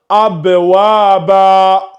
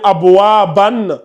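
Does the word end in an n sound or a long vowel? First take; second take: long vowel; n sound. First: The word ends with a long a vowel. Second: The word ends with an n sound. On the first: The speaker calls it right. "tu vas le lire abwaba" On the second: The speaker calls it wrong. "au lieu de lire abwaban"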